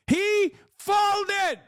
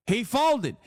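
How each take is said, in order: First: He folded, pitched way up; high shouted repeat. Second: Said in the usual way. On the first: Real, not acted. Vlogger mocking Trump's reversal, high shout. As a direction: blurt it out in disbelief.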